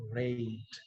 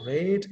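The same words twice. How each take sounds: First: RATE with a gliding 'eh-ee' vowel, low and slow; correct diphthong. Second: RATE with one long 'ehh', no glide; wrong pure vowel. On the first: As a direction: glide slowly through the vowel of RATE, "re-it". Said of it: "it is rate". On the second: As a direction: say RATE as "reht", vowel held steady. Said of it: "It's not rate". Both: Shown as a demonstration.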